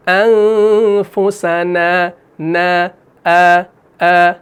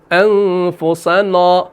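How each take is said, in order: First: Slow chanted انفسنا, light ending; fine long aa ending انفسنا; correct thin alif. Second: Slow chanted انفسنا, heavy rounded ending; dark long vowel ending انفسنا; wrongly thick alif. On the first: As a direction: draw out نا of انفسنا, open and unrounded. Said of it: "الف سے پہلے نون آ رہا ہے". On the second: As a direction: fill the mouth on the نا of انفسنا. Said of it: "وہاں پر نہیں کر رہے ہیں". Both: Shown as a demonstration.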